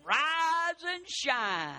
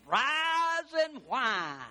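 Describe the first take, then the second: First: Slow, stretched high morning call; drawn-out singsong. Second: Slow, stretched whiny rise and whine; mock whine. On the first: Preacher quoting the morning wake-up call to the church, stretched slow. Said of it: "drawn-out saying". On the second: Preacher mocking negative people with the pun, slow whine. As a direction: draw it out like a whiner. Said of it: "whiny pun". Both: Shown as a demonstration.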